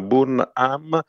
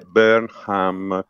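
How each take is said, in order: First: It is said the Italian way, with silent h. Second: It is said the English way, with breathy h. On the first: The speaker calls it wrong. "basta non pronunciarlo all'italiano" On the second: The speaker calls it right. "Burnham con l'H aspirata"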